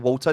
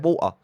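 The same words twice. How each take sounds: First: The T sound in the middle is pronounced. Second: The T sound in the middle is dropped. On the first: "You don't say water. There's no T in water" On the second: "If you're from Essex, you say water"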